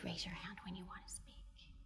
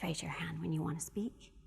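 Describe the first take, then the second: First: It is said in a soft, gentle voice. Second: It is said in an ordinary, everyday voice. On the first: The request can easily be ignored. "So I am going to demonstrate soft voice" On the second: The request is only somewhat likely to be followed. "let's do a regular voice"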